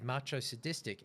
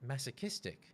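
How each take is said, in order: First: The word begins with a 'macho' sound. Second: The word begins with a 'mass' sound. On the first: The speaker calls it wrong. "I said macho sadistic" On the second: The speaker calls it right. "it's masochistic"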